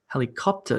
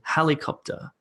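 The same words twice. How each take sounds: First: The stress is on a later syllable. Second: The stress is on the first syllable. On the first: The speaker calls it wrong. "That would be wrong because it sounds weird" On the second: The speaker calls it right. "Instead, we say helicopter"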